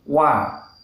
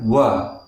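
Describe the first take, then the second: First: The wa is said light, not thickened. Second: The wa is said heavy and thickened. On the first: The speaker calls it right. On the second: The speaker calls it wrong.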